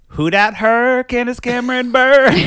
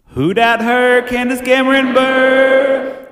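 First: The voice sounds plain, without an added effect. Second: The voice has an added audio effect on it.

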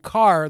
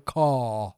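First: It is said with the R pronounced. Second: It is said British-style without the R.

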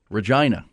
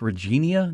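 First: The name rhymes with 'vagina'. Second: The name does not rhyme with 'vagina'. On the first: "the way they pronounce it, it rhymes with you know what" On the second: "I think it's Regina"

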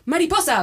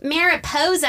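First: It is pronounced the Spanish way. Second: It is pronounced the English way. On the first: The speaker calls it right. "which is how you say it" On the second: The speaker calls it wrong. "everyone's like"

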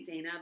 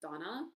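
First: The first vowel sounds like the vowel in 'cat'. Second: The first vowel sounds like the vowel in 'father'. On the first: This is how the speaker usually says it. The speaker calls it wrong. "I say Dana" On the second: This is believed to be the correct form. The speaker calls it right. "I think the correct pronunciation is Donna"

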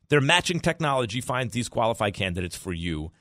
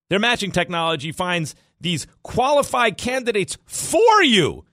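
First: The words 'for you' carry no special emphasis. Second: The words 'for you' carry strong emphasis.

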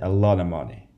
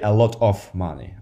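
First: The words are reduced and linked together. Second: Each word is pronounced fully and separately. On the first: The speaker calls it right. "that's a very natural way to say it. It's more efficient" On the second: The speaker calls it wrong. "I don't say a lot of money"

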